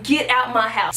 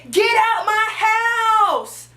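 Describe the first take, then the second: First: Said in the usual way. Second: High, drawn-out re-enacted shout; yelling. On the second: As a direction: yell it slowly, stretching every word to chase off an intruder. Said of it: "So I'm yelling with a knife".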